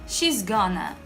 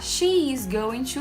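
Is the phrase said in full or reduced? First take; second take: reduced; full. First: The words are contracted and run together. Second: Each word is said fully and separately. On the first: This is the informal way natives speak. "eu falo she's gonna" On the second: This is the careful form taught in school. "em vez de falar"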